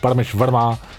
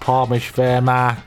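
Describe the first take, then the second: First: It is said in his own natural voice. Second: It is said in a put-on British voice.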